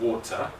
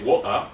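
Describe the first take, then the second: First: The middle T sound is clearly pronounced. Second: The middle T sound is dropped. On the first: The speaker calls it right. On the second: The speaker calls it wrong.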